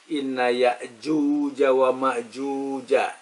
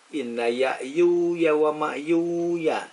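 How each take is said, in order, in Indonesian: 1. Konsonannya dilafalkan seperti bunyi j. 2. Konsonannya dilafalkan seperti bunyi y. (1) "tulisnya jim" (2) "bacanya dengan iya"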